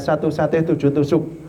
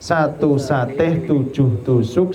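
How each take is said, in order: First: It is said faster than normal. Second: It is said at normal speed.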